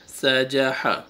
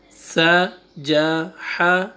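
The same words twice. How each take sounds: First: سا، جا، ہا flowing as one unit; three letters joined. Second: سا، جا، ہا slowly, with gaps between; separate letters. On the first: Teacher reads the next three letters, سا، جا، ہا together. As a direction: join سا، جا، ہا with no breaks. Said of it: "three letters کو آپ ایک ساتھ بولیں". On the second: Teacher reads the next three letters, سا، جا، ہا apart. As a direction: stop after each of سا، جا، ہا. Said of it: "روک کے پڑھا ہے". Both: Shown as a demonstration.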